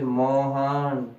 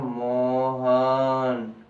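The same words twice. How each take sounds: First: The word is said at normal length. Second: The word is drawn out very long.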